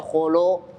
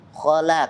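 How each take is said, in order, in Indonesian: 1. Bunyi l itu berat dan tebal. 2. Bunyi l itu ringan dan tipis. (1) "nah dibaca nggak jelas itu" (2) "Lam itu tipis"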